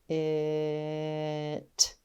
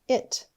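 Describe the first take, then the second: First: The sounds are stretched out slowly. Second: The word is said quickly. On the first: "let's tap and stretch them together" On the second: "let's say it fast"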